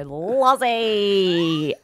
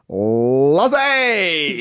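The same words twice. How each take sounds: First: Calling the name out, drawn long; a bright staring hello from the colleague; colleague's greeting. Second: Calling the name out, drawn long; a bright staring hello from the colleague; colleague's loud greeting. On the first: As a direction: Lozzie stretched out as a long greeting. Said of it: "You'd go up and she'd go". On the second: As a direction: Lozzie called out loud and long, no small talk. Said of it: "she'd look you in the eye all the time and go". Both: Retold or imitated.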